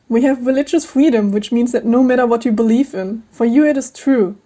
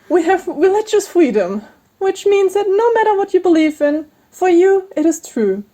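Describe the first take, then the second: First: It is said in her normal voice. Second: It is said in a higher voice.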